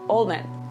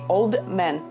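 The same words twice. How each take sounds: First: The final sound of old is dropped. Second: The final sound of old is pronounced. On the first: The speaker calls it right. "they don't like the endings" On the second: The speaker calls it wrong. "They don't say old man"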